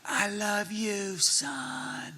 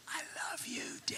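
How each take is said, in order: First: Voiced slow-motion reply, stretched out. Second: Put-on whispery slow-motion child. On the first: Dad answering his son in the dream, slow motion. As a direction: draw every word out in mock slow motion. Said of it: "in slow motion you do". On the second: Son to his dad in the dream, slow-motion whisper. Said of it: "it was all slow motion".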